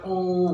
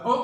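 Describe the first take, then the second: First: "ओ" held long; teacher demonstrating long "ओ"; long sound. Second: "ओ" cut very short; a quick, clipped short-o "ओ"; short sound. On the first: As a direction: stretch "ओ" into a sustained "oh". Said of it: "इसकी long sound है". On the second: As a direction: say "ओ" as a brief vowel, not held. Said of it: "इसकी short sound है". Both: Shown as a demonstration.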